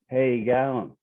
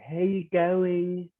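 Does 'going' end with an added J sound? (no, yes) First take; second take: no; yes. First: Going ends without an added J sound. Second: Going ends with an added J sound. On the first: This is how the men say it. "the guys always say" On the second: This is how the women say it. "with a J on the end of it"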